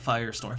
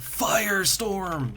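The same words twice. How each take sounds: First: It is said at normal volume. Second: It is shouted loudly.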